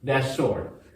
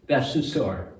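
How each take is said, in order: First: The word 'to' is reduced and barely heard. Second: The word 'to' is clearly pronounced. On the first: "It sounds like that store" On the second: "he was saying that to store"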